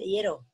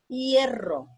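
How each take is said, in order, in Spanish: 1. La r es un sonido suave, simple. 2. La r es un sonido fuerte, vibrante.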